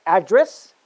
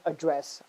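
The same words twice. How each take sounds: First: ADdress, stressed on the first syllable. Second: AdDRESS, stressed on the second syllable. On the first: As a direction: say "address" as the noun, punching "ad". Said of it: "stress on the first syllable". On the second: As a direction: say "address" as the verb, weight on "dress". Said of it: "stress on the second syllable". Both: Shown as a demonstration.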